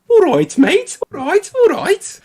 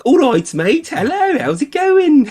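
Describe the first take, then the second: First: Very high, loud mock Scouse; comedy-sketch Scouse caricature; Scouse accent. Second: Very high, loud cartoon Brummie; sing-out friendly mock Birmingham accent. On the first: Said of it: "as far as I go with Scouse". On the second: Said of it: "But in Birmingham, when you go there".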